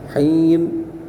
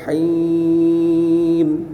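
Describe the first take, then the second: First: The vowel is held for four beats. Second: The vowel is held for six beats. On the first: "Empat harakat" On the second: "Dan enam harakat boleh di situ"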